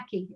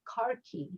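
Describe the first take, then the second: First: The first syllable has no R sound. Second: The first syllable has an R sound. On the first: It names a tan colour. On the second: It is the local way of saying the word.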